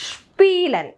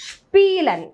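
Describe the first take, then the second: No difference in how they are said.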